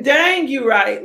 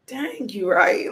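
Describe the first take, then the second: First: Higher and loud, slow stretched "Dang"; higher loud exclaim. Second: Slow, loud drawn-out "Dang"; loud exclaim. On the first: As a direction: repeat it higher, shouting in playful agreement. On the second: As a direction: shout it slowly, like it suddenly hit you. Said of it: "And I was like". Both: Retold or imitated.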